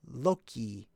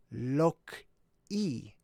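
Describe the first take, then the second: First: Said in the usual way. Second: Lok-i drawn out as "lock", pause, "ee"; broken into syllables. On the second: Shown as a demonstration. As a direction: separate Lok-i into two slow parts. Splitting the word to show it.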